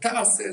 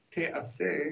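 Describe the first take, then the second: First: The word has active vowels, ta-a-se. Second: The word has passive vowels, te-a-se. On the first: It is a command to do the work. "תעשה זה ציווי" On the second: The work will be done. "כאילו היא עשויה"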